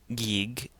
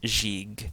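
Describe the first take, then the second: First: Both G sounds are hard, like go. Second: The first G is soft, the last hard. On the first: The speaker calls it wrong. "and it's not Gig" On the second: The speaker calls it right. "the first Ganga is going to be a soft G or a J sound... the last Ganga is a hard G sound"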